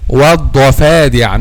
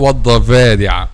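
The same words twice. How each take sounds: First: The middle consonant is a voiceless F sound. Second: The middle consonant is a voiced V sound. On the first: The speaker calls it right. "so it's" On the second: The speaker calls it wrong.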